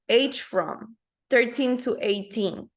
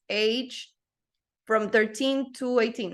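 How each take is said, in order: First: Age and from are joined into one unit. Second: Age and from are said as separate words. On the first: The speaker calls it right. "you always pronounce them together" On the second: The speaker calls it wrong. "You don't say"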